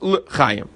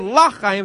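First: The first syllable has a short 'eh' vowel. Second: The first syllable has an open 'ah' vowel. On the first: It means to life. The speaker calls it right. "it's le chayim" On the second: It means not to life. The speaker calls it wrong. "you shouldn't say la chayim"

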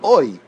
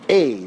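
First: The vowel is said as 'oi'. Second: The vowel is said like an 'ei' sound. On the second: "much more like a tsere type sound"

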